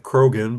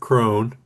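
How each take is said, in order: First: The name has two syllables with a hard g. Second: The name has one syllable with no g. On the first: This is how the spelling suggests it. "it's spelled like Krogan" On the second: This is how the family says it. "they pronounce it Crone"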